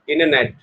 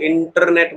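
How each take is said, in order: First: American accent, the t is dropped: inner-net. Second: Indian accent, with a strong r and hard t.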